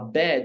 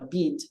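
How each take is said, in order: First: It is said with a standard open vowel. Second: It is said with a New Zealand raised vowel.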